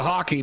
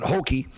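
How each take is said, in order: First: "hockey" with a short open o, like HOCK-ee; "hockey" clearly said as the game; hockey as in the sport. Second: "hokey" with a long o, HOKE-ee; "hokey" set apart from the sport's name; hokey as in corny. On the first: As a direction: say "hockey" the sport's way, not the folksy word. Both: Shown as a demonstration. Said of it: "not hockey, but hokey".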